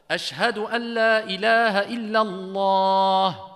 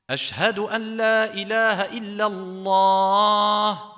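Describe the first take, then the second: No difference in how they are said.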